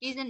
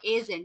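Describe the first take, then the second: First: The word begins with an 'ee' vowel. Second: The word begins with an 'eh' vowel. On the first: The speaker calls it wrong. "ইজেন না ভাইয়া" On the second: The speaker calls it right. "এ অবশ্যই এ উচ্চারণ করবে"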